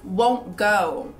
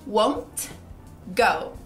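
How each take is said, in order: First: Said quickly and naturally, with the T barely heard. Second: Said slowly, with each word pronounced clearly. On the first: "Pegando essa naturalidade, a gente diz won't go" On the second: "falando pausadamente"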